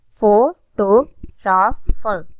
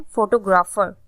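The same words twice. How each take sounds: First: photographer very slowly in four separate syllables; teacher counting out the syllables of photographer. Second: Said in the usual way. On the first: Shown as a demonstration. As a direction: break photographer into four, pausing after each part. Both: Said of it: "ये four syllabic word है".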